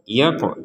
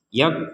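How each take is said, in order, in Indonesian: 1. Qaf dilepaskan dengan gema yang memantul. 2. Qaf dipotong pendek tanpa pantulan sama sekali. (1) "Di sini ada qaf sukun kita pantulkan" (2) "Jadi jangan sekedar dibaca yak"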